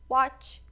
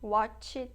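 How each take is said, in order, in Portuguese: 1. A palavra termina limpa na consoante final. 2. Uma vogal extra 'ee' segue a consoante final. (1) "já memorizem de forma correta" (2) "tá errado"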